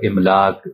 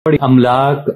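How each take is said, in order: First: The word begins with an 'i' vowel. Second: The word begins with an 'a' vowel. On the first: The speaker calls it wrong. "अलिफ पर ज़ेर के साथ यानी गलत तौर पर" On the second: The speaker calls it right. "अलिफ पर ज़बर"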